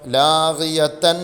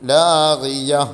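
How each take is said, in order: First: The word ends with a t sound and vowel. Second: The word ends in a silent h sound. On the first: The reader continues into the next word. "കൂട്ടി ഓതി പോകണമെങ്കിലോ" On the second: The reader stops on this word. "അവിടെ നിർത്തുകയാണെങ്കിൽ ലാഗിയ ഹാഇനെ സുക്കൂൻ ചെയ്യണം"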